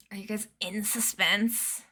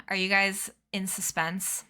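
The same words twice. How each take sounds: First: Whispered, teasing suspense; spooky whisper. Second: Said in the usual way. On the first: Shown as a demonstration.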